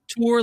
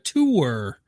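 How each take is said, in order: First: The vowel sounds like the 'or' in 'tore'. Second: The vowel sounds like the 'oo' in 'poor'. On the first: "like T O R" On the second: "or like a tour"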